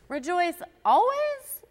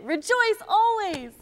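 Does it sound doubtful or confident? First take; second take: doubtful; confident. First: It sounds doubtful, like a disbelieving question. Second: It sounds confident, like a firm statement.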